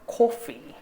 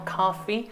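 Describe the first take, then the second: First: The vowel is a short rounded o, British style. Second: The vowel is an open ah sound, American style. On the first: "영국식으로는 오로 바뀌어서" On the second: "미국식은 사실 우리가 커피라고는 하지만 미국식은 카피에 좀 더 가깝거든요"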